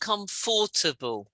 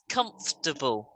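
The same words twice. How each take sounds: First: The word is said with four syllables. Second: The word is said with three syllables. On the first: The speaker calls it wrong. "it's not comfortable. It's this bit in the middle" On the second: The speaker calls it right. "But we say it as comfortable"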